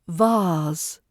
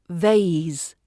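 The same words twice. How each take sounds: First: It is said with a British accent. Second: It is said with an American accent. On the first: "In British English we say" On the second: "In American English it's"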